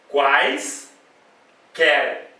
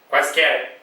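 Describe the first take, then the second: First: The word is split into two separate syllables. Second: The word is said smoothly without a break.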